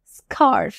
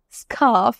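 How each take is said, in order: First: স্কার্ফ with the r sounded, "skarrf"; US pronunciation. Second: স্কার্ফ with silent r, "skaaf"; long open vowel in স্কার্ফ, r dropped; UK pronunciation. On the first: Teacher giving the alternative way to say scarf, US pronunciation. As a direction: clear American r before the f in স্কার্ফ. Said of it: "এবং US প্রনাউন্সিয়েশনে". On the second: Teacher contrasting two ways to say scarf, UK pronunciation. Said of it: "আমরা বলি UK প্রনাউন্সিয়েশনে". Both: Shown as a demonstration.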